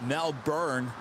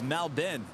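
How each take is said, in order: First: The last syllable is a full 'born'. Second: The last syllable is short and reduced. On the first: The speaker calls it wrong. "I used to call it Melbourne" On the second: The speaker calls it right. "This is how you pronounce it"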